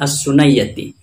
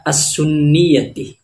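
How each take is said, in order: First: The second syllable is a 'nay' sound. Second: The second syllable is a short 'ni' sound. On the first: It suggests a diminutive form. The speaker calls it wrong. "bukan as-sunayyati" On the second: It marks a relation to the sunnah. The speaker calls it right. "Jadi yang benar itu dibaca as-sunniyati"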